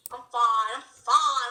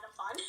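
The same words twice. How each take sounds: First: Louder, insisting I'm fine. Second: Said in the usual way. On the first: Pretend. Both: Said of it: "I'm like, oh, never mind".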